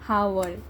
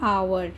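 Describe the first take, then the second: First: The word begins with an h sound. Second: The word begins with a vowel sound. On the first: The speaker calls it wrong. "इसको आप बोलते हैं हावर" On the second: The speaker calls it right. "इसका उच्चारण होगा आवर"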